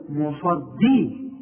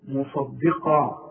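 First: مصدي slow, the د turned heavy like ض; teacher demonstrating a common mistake; wrong pronunciation. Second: مصدقا very slow, with a light, thin د; teacher correcting the student; correct pronunciation. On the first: Retold or imitated. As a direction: imitate the student's heavy د in مصدي. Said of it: "هتطلع منك ضاد". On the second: Shown as a demonstration. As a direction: model مصدقا slowly, keeping the د light. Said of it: "شوف الدال بقى".

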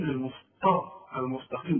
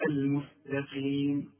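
First: المسطى with a thick emphatic t; wrong heavy ta. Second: المستقيم with a light t; thin the m, s and t in المستقيم; correct light ta. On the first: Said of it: "أمال بتقول". (المسطى بطاء مفخمة) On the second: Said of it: "إذا هقول". (المستقيم بتاء مرققة) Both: Shown as a demonstration.

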